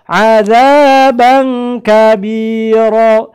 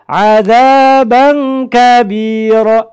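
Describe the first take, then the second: The two takes are said the same way.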